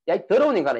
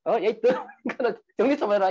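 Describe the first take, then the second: First: Mild retold scolding. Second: Higher-pitched mock scolding of a messy husband; imitating an angry wife. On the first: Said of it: "이렇게 이야기했어요". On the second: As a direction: snap at him like a fed-up wife. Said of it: "순간적으로 화가 확 나가지고". (지저분한 남편을 나무라는 아내의 흉내, 높은 음조로 화난 듯이)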